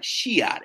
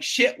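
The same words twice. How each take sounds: First: "Shiat" drawn out as shee-at, in two parts; Southern Shiat. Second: Said in the usual way. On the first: Shown as a demonstration. Realtor spelling out the client's Southern "Shiat", drawled shee-at. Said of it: "It was S H E A T". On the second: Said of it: "shit was literally like Shiat".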